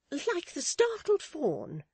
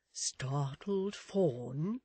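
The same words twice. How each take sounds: First: Very high, loud, slow matron voice; snatch up the phrase, pitched right up; emphatic assent. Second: Very drawn-out, questioning character voice; tentative suggestion. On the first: Mrs Chick adopts Miss Tox's simile, emphatic assent. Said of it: "said Missus Chick". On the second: Miss Tox supplies another simile, tentative suggestion. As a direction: offer it very slowly, rising at the end. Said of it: "suggested Miss Tox". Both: Acted.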